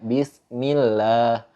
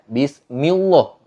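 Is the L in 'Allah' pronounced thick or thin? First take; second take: thin; thick. First: The L sound is thin and light. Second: The L sound is thick and heavy. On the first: The speaker calls it right. "tapi harus dibaca" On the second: The speaker calls it wrong. "enggak dibaca"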